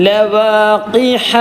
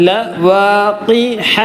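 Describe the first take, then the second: No difference in how they are said.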